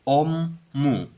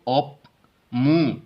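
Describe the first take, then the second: First: The p becomes an m sound. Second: A p sound comes before the m. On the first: The speaker calls it right. "Simply पढ़ेंगे ओमू" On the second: The speaker calls it wrong. "ऑप मुंह पढ़ने की बजाय"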